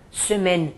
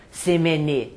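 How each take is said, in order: First: Semaine stopping on the N, no final e; the right way, semaine ends on N; right pronunciation. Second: Semaine with the final e sounded, semene; the wrong way, voicing the last e of semaine; wrong pronunciation. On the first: Teacher showing students the correct semaine. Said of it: "para no N". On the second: Teacher showing students the wrong semaine. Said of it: "Eu não falo semaine". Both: Shown as a demonstration.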